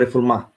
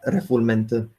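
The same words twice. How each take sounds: First: The word is pronounced with French sounds. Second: The word is pronounced with English sounds.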